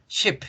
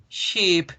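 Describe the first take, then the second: First: "ship" with a short dry vowel; "ship" clipped, lax vowel. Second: "ship" said as sheep, long falling ee; "ship" with a held ee, higher pitch. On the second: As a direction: draw out the vowel of "ship". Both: Shown as a demonstration. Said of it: "fíjense en la diferencia entre las dos".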